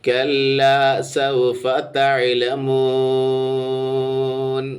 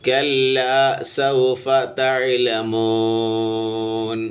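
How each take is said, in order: Both takes have the same delivery.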